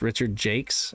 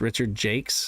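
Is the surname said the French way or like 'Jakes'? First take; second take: Jakes; Jakes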